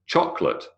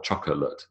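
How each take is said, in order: First: "Chocolate" said as CHOC-lit; elided chocolate. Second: "chocolate" in three syllables, CHOC-O-LATE; over-full chocolate. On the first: Lecturer showing students the elided form, two-syllable "Chocolate". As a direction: drop the middle vowel of "Chocolate": CHOC-lit. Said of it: "is not chocolate". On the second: Lecturer showing the form to avoid, three-syllable "chocolate". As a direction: sound out the middle O in "chocolate". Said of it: "unless you're Yogi Bear". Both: Shown as a demonstration.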